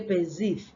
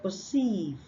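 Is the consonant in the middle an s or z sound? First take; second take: z sound; s sound. First: The middle consonant is a buzzing z sound. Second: The middle consonant is a hissing s sound. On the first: The speaker calls it wrong. "They say perceive" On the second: The speaker calls it right. "instead of perceive"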